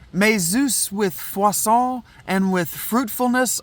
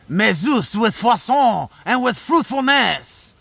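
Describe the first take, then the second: First: It is read in the speaker's plain accent. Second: It is read in a put-on French accent.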